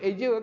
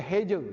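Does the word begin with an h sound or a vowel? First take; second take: vowel; h sound. First: The word begins directly with a vowel sound. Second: The word begins with an h sound. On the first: This is how people say it today. "Orang dulu-dulu tak sebut eja kan" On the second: This is how people said it in the old days. "dia kata heja"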